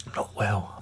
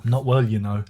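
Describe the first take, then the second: First: Breathy, unvoiced sick whisper; whispered, poorly and wheezy; weak whisper. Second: Said in the usual way. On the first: Real, not acted. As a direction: croak it out like you're ill.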